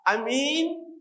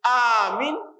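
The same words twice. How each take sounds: First: The second vowel is held long. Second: The first vowel is held long. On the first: "kemudian minnya ahkamul" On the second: "kalau alifnya di ahkamul alif"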